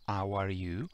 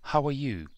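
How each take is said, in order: First: The h at the start is dropped. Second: The h at the start is clearly heard. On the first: The speaker calls it wrong. "e non" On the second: The speaker calls it right.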